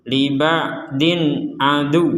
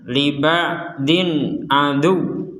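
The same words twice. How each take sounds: No difference in how they are said.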